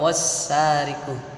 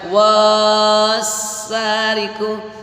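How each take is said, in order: First: The first vowel is short. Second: The first vowel is held long. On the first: The speaker calls it right. "harus dibaca wassariku" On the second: The speaker calls it wrong. "nggak boleh dibaca wassariku"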